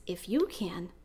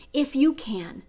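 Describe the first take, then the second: First: Quiet, lower disbelieving echo of the question; incredulous echo. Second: Pleading father. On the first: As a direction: hand his words back to him, gently amazed. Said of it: "And Jesus says". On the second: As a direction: ask it as a desperate father. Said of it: "And Jesus says, "If you can?". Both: Retold or imitated.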